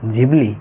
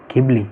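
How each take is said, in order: First: The word starts with a j sound. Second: The word starts with an aspirated gh. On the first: This is how Japanese people say it. "એનું જે real pronunciation છે એ જીબલી છે" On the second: This is how Western countries say it. "ગિબલી કે ઘીબલી નથી"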